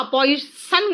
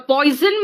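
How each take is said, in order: First: पॉइजन with a hissing s, pɔisən; wrong pronunciation. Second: पॉइजन with a voiced z, poizən; correct pronunciation. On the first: Teacher shows pupils the wrong poison: पॉइजन with s. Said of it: "पॉइजन नहीं कहा". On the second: Teacher models poison slowly: पॉइजन with z. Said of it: "पॉइजन कहा". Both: Shown as a demonstration.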